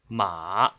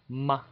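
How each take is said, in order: First: It is said with Mandarin third tone. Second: It is said lightly with the neutral tone. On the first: "The third tone is ma" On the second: "the fifth tone would be light"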